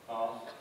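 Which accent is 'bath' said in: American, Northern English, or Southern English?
Southern English. The vowel is long and open, like 'ah'. "my own pronunciation is with an R kind of vowel"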